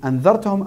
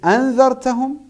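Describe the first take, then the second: First: The opening vowel is short, without a glottal stop. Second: The opening vowel is drawn out long. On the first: "tu enlèves carrément le hamza" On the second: "avec mad, un petit peu de mad"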